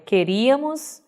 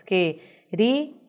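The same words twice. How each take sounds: First: Said in the usual way. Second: "queríamos" split into que, ri, a, mos; separated syllables. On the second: Shown as a demonstration. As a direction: pause after each syllable of "queríamos". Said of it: "Separando, nós teríamos". ("queríamos" separado sílaba por sílaba)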